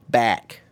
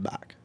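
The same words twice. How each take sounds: First: The vowel is a hard, flat 'eh' sound. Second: The vowel is a softer, more open sound. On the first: "Hard eh. Like" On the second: "instead of"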